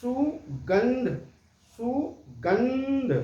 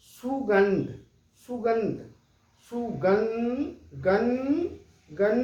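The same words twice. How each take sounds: First: सुगंध drawn out very slowly, holding the nasal न; slow, deliberate सुगंध through the nose; slow anusvara demo. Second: सुगंध with a humming न before ध, repeated; सुगंध said with the nasal न ringing; anusvara demo. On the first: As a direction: stretch सुगंध, humming the न before ध. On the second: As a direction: close on the nasal न in सुगंध through the nose. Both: Shown as a demonstration. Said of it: "आप गौर कीजिए इसको कई बार बोलने के बाद".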